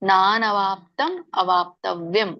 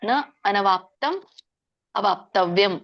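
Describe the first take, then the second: First: Na and anavāptam merge into one long nā. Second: Na and anavāptam are said as separate words. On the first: "ಕೂಡಿ ಹೇಳೋದಾದ್ರೆ" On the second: "ಬಿಡಿಸಿದಾಗ"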